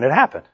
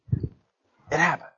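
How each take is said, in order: First: Said in the usual way. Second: Much softer, drawn out slowly; slow soft echo. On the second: Acted. Preacher repeating the point softly to the church. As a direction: let it land quietly and slowly.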